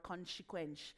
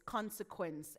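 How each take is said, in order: First: "consequence" with SH for each S, as conshequensh; mispronounced consequence. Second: Said in the usual way. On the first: Shown as a demonstration. Coach showing what not to say, "consequence" with SH sounds. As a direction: slur both S sounds in "consequence" into SH. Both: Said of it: "it's consequence and not consequence".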